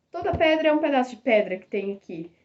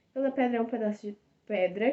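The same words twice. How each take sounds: First: "pedra" and "pedaço" hit on their p sounds, a bit louder; alliteration demo. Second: Said in the usual way. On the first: Shown as a demonstration. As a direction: punch every p in "toda pedra é um pedaço de pedra". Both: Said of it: "A literação é a repetição de sons consonantais".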